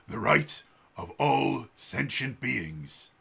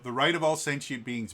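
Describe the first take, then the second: First: It is said in a put-on heroic voice. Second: It is said in his normal voice.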